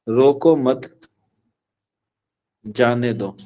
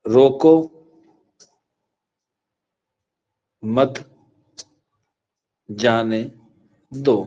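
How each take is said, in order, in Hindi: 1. दूसरे शब्द के बाद विराम है। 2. पहले शब्द के बाद विराम है। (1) "फिर मैंने दूसरा एक जुमला आपको बोला" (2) "मैंने यहां पे एक कोमा लगा दिया"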